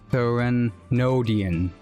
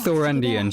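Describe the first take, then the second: First: The word begins with 'thre' plus a middle o. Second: The word begins with a 'tho' sound. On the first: The speaker calls it right. "I actually I skipped the middle O" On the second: The speaker calls it wrong. "I do it like a tho instead of a the"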